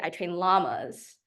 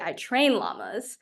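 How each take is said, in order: First: The stress is on "llamas". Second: The stress is on "train".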